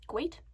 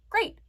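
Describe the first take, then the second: First: GREAT said as "gweat", questioning; GREAT with a w for the r, rising; slipped r. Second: GREAT said with a clear r; GREAT re-said cleanly as a correction; corrected r. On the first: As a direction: question your own slip, "gweat" for GREAT. Catches own slip of the tongue. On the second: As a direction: fix the slip, a proper r in GREAT. Corrects own slip of the tongue. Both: Real, not acted.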